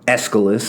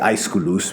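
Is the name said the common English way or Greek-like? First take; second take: common English; Greek-like. First: The name has the usual English pronunciation. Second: The name has a more Greek-like pronunciation. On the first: This is how most people say it. The speaker calls it wrong. "as some people say" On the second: This is closer to the original pronunciation. The speaker calls it right. "that's a bit closer to the proper pronunciation"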